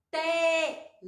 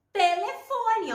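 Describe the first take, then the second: First: Telefone in four long, separate syllables. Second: Said in the usual way. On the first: Shown as a demonstration. Teacher showing children the written word, syllable by syllable. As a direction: sound out Telefone slowly, te, le, fo, ne. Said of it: "ó". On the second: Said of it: "com T podemos escrever".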